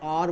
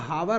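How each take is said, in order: First: The word begins directly with a vowel sound. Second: The word begins with an audible h sound. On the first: The speaker calls it right. "ये एच जो हमारा है ये silent है" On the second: The speaker calls it wrong. "इसको हम लोग हावर नहीं पढ़ते हैं"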